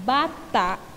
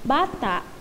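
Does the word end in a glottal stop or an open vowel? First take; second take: glottal stop; glottal stop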